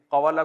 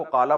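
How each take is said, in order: First: قوالا with the w sounded; original uncontracted form. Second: قالا with one long aa, no w; contracted form. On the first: (واو کی آواز کے ساتھ قوالا) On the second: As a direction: drop the w and lengthen the first vowel in قالا. (واو کے بغیر لمبے الف سے قالا) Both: Shown as a demonstration. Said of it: "قوالا کو قالا پڑھتے ہیں".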